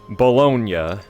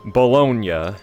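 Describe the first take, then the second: First: It is said with Italian pronunciation. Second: It is said with Italian pronunciation.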